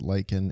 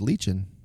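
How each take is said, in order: First: The word is said with an American pronunciation. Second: The word is said with a British pronunciation. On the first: "in American English, we pronounce it lichen" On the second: "In British, would be lichen"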